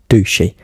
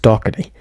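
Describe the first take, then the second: First: The name sounds like 'Dushy'. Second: The name sounds like 'Doherty'. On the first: The speaker calls it wrong. "it's not meant to be pronounced Dushy" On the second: The speaker calls it right. "it's meant to be pronounced Doherty"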